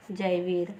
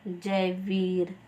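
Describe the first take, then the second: First: Said in the usual way. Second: Drawn out syllable by syllable; Jaiveer said very slowly, each syllable clear; slow spelled-out name. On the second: Shown as a demonstration. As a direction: stretch Jaiveer out slowly, as a teacher would. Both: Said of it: "आप बोल सकते हो".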